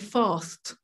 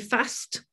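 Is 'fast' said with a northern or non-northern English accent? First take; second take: non-northern; northern. First: The word is said in a non-northern English accent. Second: The word is said in a northern English accent. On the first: "We will say fast" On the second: "up north, they will say fast"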